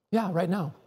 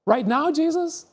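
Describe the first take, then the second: First: Softer, settled reply; calm answer. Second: High, rising, disbelieving; incredulous question. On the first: Jesus answering the disciple, soft calm reassurance. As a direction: answer gently and simply. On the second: Disciple answering Jesus's call, high incredulous question. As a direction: ask as if you can't believe the timing. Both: Acted.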